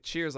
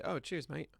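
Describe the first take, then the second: First: Said in the usual way. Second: Soft, throwaway imitation British accent; lightly imitated British "cheers, mate"; mock British accent. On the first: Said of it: "like that, but don't say". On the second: Shown as a demonstration. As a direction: put on a token British accent, quietly. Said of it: "use a crappy imitation accent".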